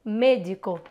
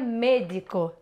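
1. A primeira vogal é um e fechado. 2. A primeira vogal é um e fechado.

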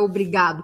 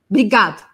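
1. Todas as vogais são pronunciadas por completo. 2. A primeira vogal é cortada e a terminação fica reduzida. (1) "a gente acaba não falando obrigada, obrigado" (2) "a gente corta o O do começo"

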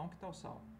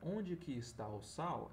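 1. Alguns sons são omitidos e as palavras são ligadas rapidamente. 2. Cada sílaba é pronunciada por completo e separadamente. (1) "numa fala mais rápida, mais coloquial" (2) "em vez de pronunciar"

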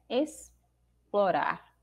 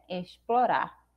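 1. O x soa como um "s" simples. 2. O x soa como "sh". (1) "ele adquire o som de um S simples" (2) "ele continuaria tendo o som de X"

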